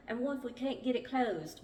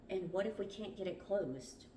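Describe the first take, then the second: First: Put-on higher-pitched, amateur English accent; bad English accent. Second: Said in the usual way. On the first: A narrator's reading. Narrator redoing the line as Mark, bad English accent. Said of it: "I know y'all need my bad English accent". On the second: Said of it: "Oh, this was Mark, sorry".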